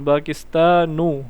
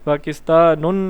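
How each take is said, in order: First: The word ends in a plain u vowel. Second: The word ends in an added n sound. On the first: The speaker calls it right. "पाकिस्तानू हम बोलेंगे" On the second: The speaker calls it wrong. "पाकिस्तानुन नहीं बोलेंगे"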